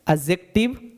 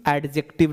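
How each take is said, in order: First: एडजेक्टिव with silent D, "uh-jektiv"; correct pronunciation. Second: एडजेक्टिव with the D sounded, "ad-jektiv"; wrong pronunciation. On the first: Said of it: "एडजेक्टिव नहीं बोलना है". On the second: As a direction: open एडजेक्टिव on a clear "AD". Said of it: "नहीं बोलना है". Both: Shown as a demonstration.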